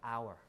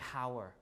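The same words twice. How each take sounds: First: It begins directly with the vowel. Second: It begins with an audible h sound. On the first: The speaker calls it right. "but hour" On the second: The speaker calls it wrong. "We don't say hour"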